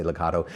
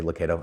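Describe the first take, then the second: First: "Lucado" with KAH as the middle syllable; ah-sound pronunciation. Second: "Lucado" with KAY as the middle syllable; long-A pronunciation. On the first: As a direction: pronounce "Lucado" loo-KAH-doh. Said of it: "I say Lucado". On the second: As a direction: pronounce "Lucado" loo-KAY-doh. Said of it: "you say Lucado". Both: Shown as a demonstration.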